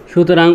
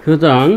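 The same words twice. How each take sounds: The two takes are said the same way.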